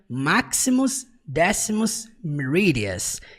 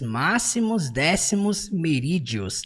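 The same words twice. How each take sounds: First: The name is said with English pronunciation. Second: The name is said with Portuguese pronunciation. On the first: "em inglês ele pronuncia" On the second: "É o jeito que a gente fala aqui no português"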